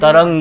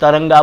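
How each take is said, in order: First: The word ends on the consonant with no vowel. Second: The word ends with an added final 'a' vowel. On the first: The speaker calls it right. "तरंग है" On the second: The speaker calls it wrong. "वो तरंगा बोलते हैं"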